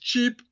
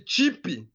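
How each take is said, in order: First: The word ends cleanly on the p sound. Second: An extra ee vowel follows the final p. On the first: "let's say you say a word cheap" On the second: "They'll say cheapy"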